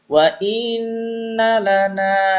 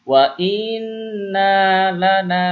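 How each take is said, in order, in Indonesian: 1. 'Na' pertama pendek, 'na' kedua panjang. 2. 'Na' pertama panjang, 'na' kedua pendek. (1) "na yang pertama pendek, na yang kedua panjang" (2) "yang pertama dibaca panjang, nah yang kedua dibaca pendek"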